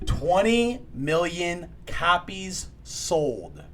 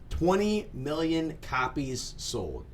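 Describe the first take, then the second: First: It is said loudly. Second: It is said at normal volume.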